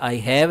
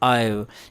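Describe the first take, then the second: First: It is said as two full words. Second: It is said as one contracted syllable. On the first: "एक आई हैव है" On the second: "अक्सर हम आई बोलते हैं"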